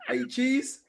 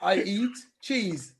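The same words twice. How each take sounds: First: Raised translation. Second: Slow translation. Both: Shown as a demonstration.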